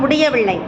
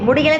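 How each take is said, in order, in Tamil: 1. இந்த சொல் முழு, நீண்ட வடிவில் சொல்லப்படுகிறது. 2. இந்த சொல் சிறிய, சுருங்கிய வடிவில் சொல்லப்படுகிறது. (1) "எழுத்து வழக்கில் சொல்லணும்" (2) "முடியல சொல்லக்கூடாது"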